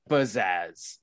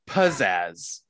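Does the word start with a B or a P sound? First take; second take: b; p. First: The word starts with a B sound. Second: The word starts with a P sound. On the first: "He's saying it with a B" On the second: "not pizzazz"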